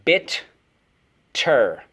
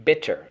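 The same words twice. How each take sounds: First: Bitter stretched long and slow; drawn-out model. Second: Said in the usual way. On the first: Shown as a demonstration. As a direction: draw out Bitter for the class. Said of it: "So first syllable". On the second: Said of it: "Again, bitter".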